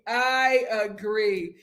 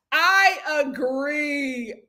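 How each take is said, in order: First: Said in the usual way. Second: I agree stretched very slow and called out; slow, emphatic drawn-out agreement. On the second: Real, not acted.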